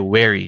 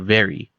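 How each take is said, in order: First: It begins with a w sound. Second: It begins with a v sound. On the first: "we'll say wary" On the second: "not very"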